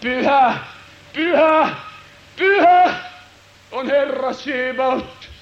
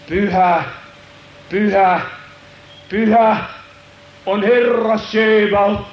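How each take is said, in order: First: Divine proclamation. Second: Building, slow holy proclamation; seraphs crying out. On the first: Heavenly voice proclaiming holiness, building proclamation. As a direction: swell the holy to a peak. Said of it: "jumalallista ääntä". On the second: Seraphs calling in the temple, building proclamation. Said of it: "kun nämä serafit huutaa". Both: Acted.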